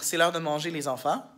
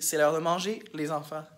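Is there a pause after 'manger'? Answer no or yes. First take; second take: no; yes. First: There is no pause after manger. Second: There is a pause after manger. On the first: The children themselves are going to be eaten. "la première sans virgule après manger" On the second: The children are being called to come eat. "Puis l'autre"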